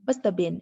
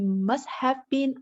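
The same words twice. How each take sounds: First: 'Have' is reduced and linked to the neighbouring words. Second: Each word is said fully and separately. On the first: The speaker calls it right. "we would say" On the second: The speaker calls it wrong. "If you pronounce this word by word"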